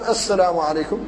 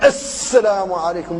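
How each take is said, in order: First: The s sound is doubled without extra hissing. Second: The s sound is hissed long and heavily. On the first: The speaker calls it right. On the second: The speaker calls it wrong.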